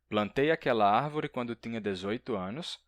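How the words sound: It is spoken in a Brazilian accent. "um brasileiro"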